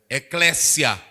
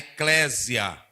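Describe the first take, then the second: First: The middle consonant sounds like an s. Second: The middle consonant sounds like a z. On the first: The speaker calls it right. "porque no grego o sigma, ele é só esse som" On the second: The speaker calls it wrong. "eu já vi pregador é, falando, por exemplo"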